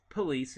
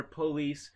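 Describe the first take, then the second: First: Said in the usual way. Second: "police" with a long O up front; rural PO-lees. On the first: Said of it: "more pronounced in suburban areas". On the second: Shown as a demonstration. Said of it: "where it's not po".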